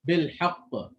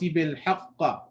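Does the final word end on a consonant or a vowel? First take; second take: consonant; vowel. First: It ends on a bouncing q with no vowel. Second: It ends with a short a vowel after q. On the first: The speaker calls it right. "the Qaf has a shadda and we are stopping on it" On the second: The speaker calls it wrong. "You added a fatha. That's incorrect"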